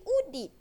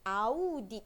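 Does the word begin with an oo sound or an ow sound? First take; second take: oo; ow. First: The word begins with a plain oo vowel. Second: The word begins with an ow diphthong. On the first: The speaker calls it wrong. "dia jadi udit. Salah" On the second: The speaker calls it right. "barulah bunyinya audit"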